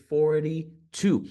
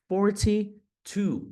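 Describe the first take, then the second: First: FORTY-TWO with a tapped T; slowly, FORTY as "for-dee" in FORTY-TWO; American-style "for-dee two" for FORTY-TWO; flapped forty-two. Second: FORTY-TWO with a crisp T; slowly, sounding the T in FORTY; British-style "for-tee two" for FORTY-TWO. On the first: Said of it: "esse T vai ganhar um som de R". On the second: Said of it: "forty ou forty no inglês britânico". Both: Shown as a demonstration.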